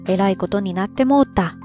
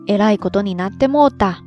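First: It is said in Kansai dialect. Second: The same.

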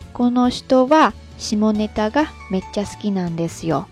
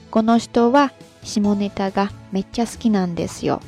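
The two takes are said the same way.

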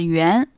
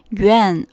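First: It is said with native Mandarin pronunciation. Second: It is said with an English speaker's accent. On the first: "而不是元" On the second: "这个是外国人的一个口音啊，他们就会说元"

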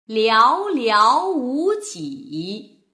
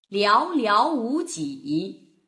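First: It is read slowly with very clear articulation. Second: It is read faster with expressive feeling.

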